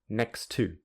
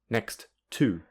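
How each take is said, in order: First: The two words run together smoothly. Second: The two words are said separately. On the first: "with linking" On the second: "without linking"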